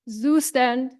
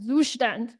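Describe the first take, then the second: First: The name is said with an English pronunciation. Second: The name is said with a German pronunciation. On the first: The speaker calls it wrong. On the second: The speaker calls it right.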